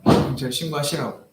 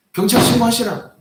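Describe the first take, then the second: First: Said in the usual way. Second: Higher, louder dare; defiant shout. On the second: Retold or imitated. Pastor daring the old man to call the police, loud.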